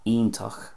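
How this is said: It starts with an ee sound, ending in ach. "Connacht, you can hear the e there"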